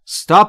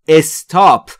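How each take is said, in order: First: The word starts directly with the s. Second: An extra vowel is added before the s. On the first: The speaker calls it right. "این لغت در ابتداش ا نداره" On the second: The speaker calls it wrong. "بسیاری از زبان آموزا به اشتباه تلفظ میکنن استاپ"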